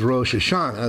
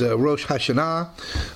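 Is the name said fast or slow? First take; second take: fast; slow. First: The name is said quickly and run together. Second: The name is said slowly and fully.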